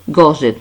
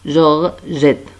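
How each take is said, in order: First: It begins with a hard g sound. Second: It begins with a soft zh sound. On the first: The speaker calls it wrong. "Ce n'est pas Gorgette, non" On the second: The speaker calls it right.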